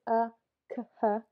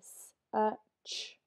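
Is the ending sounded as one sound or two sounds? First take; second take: two sounds; one sound. First: The final c and h are sounded separately. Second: The final ch is sounded as one sound. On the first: The speaker calls it wrong. "we don't say s-a-k-h" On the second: The speaker calls it right. "we say s-a-ch, one sound"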